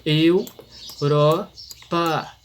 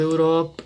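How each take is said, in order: First: "Europa" slowly broken as eu, ro, pa; split into syllables. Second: Said in the usual way. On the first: Shown as a demonstration. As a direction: pause after each syllable of "Europa". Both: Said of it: "três sílabas que se separam".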